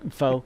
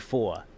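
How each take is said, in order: First: The word is short with no final r. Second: The word is drawn out, New York style.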